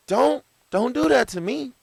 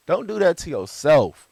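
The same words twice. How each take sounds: First: Squeaky, high mock plea; high-pitched plea. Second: Laughing through the words. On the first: Pleading reaction to a remark. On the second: Real, not acted. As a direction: say it while laughing. Laughing follow-up.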